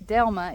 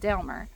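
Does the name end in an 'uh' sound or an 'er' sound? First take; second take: uh; er. First: The name ends in a plain 'uh' vowel. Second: The name ends with an 'er' sound. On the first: This is the standard form of the name. "She wouldn't say Delma" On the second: This is how the family elders say it. "it was Delmer"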